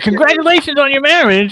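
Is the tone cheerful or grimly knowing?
cheerful. It sounds cheerful and sincerely happy.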